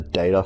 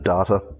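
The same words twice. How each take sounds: First: It uses a different, non-Australian pronunciation. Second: It uses the common Australian pronunciation. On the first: "As opposed to data" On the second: "I've heard most people in Australia pronounce it data"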